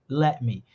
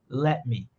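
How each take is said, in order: Both takes have the same delivery.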